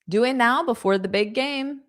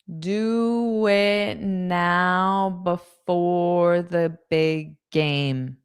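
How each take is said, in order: First: The sentence is spoken quickly. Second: The sentence is spoken slowly. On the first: "I'll say it fast" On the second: "Now I'll say it slowly"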